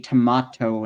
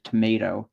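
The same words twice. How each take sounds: First: It is said with a British accent. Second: It is said with an American accent. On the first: "in the U K they say tomato" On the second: "instead of tomato"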